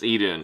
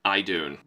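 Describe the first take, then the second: First: The first vowel sounds like 'ee'. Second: The first vowel sounds like 'eye'. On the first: The speaker calls it right. "it's Eden. Like Garden" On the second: The speaker calls it wrong. "I said it like it was a long I"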